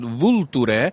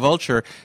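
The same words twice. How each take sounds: First: The word is pronounced the Italian way. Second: The word is pronounced the English way. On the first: "We pronounce it Vulture" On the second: "but it's written like a vulture"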